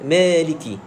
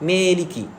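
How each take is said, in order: No difference in how they are said.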